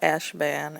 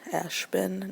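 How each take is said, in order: First: The last syllable sounds like ban. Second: The last syllable sounds like bin. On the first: The speaker calls it wrong. "not Ashban" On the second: The speaker calls it right. "like a bin of toys"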